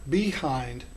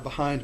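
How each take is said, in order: First: The first vowel is a full 'ee' sound. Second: The first vowel is a reduced 'uh' sound. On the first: "I did not say" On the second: "the E sound here has more of an uh sound"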